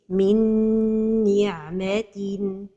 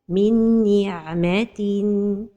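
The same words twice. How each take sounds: First: The nasal sound is held long. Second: The nasal sound is cut short. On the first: The speaker calls it right. "So the right pronunciation is" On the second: The speaker calls it wrong. "The mistake is to pronounce the idgham without a time for the ghunnah"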